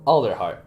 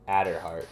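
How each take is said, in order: First: The name is said with an L sound. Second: The name is said without an L sound. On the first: The speaker calls it right. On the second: The speaker calls it wrong.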